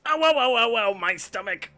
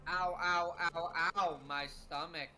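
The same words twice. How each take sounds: First: Loud, high mock pain cries; exaggerated pained yelp. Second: Low, flat, lifeless ow ow; deadpan reading. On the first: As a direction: overact the stomach ache, much louder. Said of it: "to quote you". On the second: Retold or imitated. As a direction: read the pain cries with zero emotion. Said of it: "the deadpan delivery of that".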